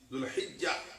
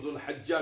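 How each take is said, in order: First: The vowel after the h is 'i'. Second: The vowel after the h is 'a'. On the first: "हा के साथ जेर भी मिला देते हैं" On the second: "कभी इसको जुलहज्जा भी कहते हैं"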